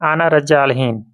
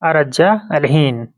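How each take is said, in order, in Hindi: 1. सर्वनाम 'ana' पूरा बोला जाता है। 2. सर्वनाम छोटा होकर सिर्फ एक 'a' रह जाता है। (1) "फुल फॉर्म में भी बोल सकता है" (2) "सिर्फ आ को लगाया गया है"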